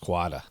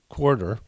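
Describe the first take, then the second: First: It is said with a Boston accent, r dropped. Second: It is said without the accent, r pronounced. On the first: "I have one like Boston accent word" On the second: "I have to concentrate on pronouncing"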